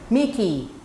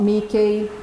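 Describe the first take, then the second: First: The written E in the ending is not pronounced. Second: The written E in the ending is pronounced. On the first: The speaker calls it right. "it's Mickey" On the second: The speaker calls it wrong. "it's not Mickey"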